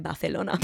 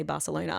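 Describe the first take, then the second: First: "Barcelona" said Bathelona, with a th; lisped pronunciation. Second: "Barcelona" with a plain s for the c; usual English pronunciation. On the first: Answering boyfriend in the argument, lisped "Barcelona". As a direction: answer with a lispy Spanish-style "Barcelona". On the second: Quoting boyfriend's question, "Barcelona" with an s. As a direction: say "Barcelona" as Bar-sa-lona, English-style. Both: Retold or imitated. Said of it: "how do you say Barcelona".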